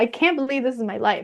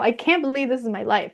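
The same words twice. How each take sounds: First: It sounds delighted and amazed. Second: The same.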